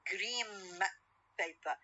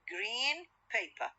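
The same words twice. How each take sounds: First: Green ends in an m sound. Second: Green ends in an n sound. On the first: "When I pronounce them rapidly ... The N sound will be changed into M sound" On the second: "two words"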